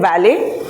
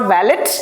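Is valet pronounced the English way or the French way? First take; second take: French; English. First: It is pronounced the French way. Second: It is pronounced the English way. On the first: The speaker calls it right. "He beautifully used the French connotation, calling it valet" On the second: The speaker calls it wrong. "It's not valet"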